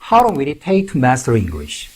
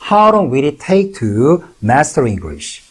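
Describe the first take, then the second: First: It is said at normal speed. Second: It is said slowly.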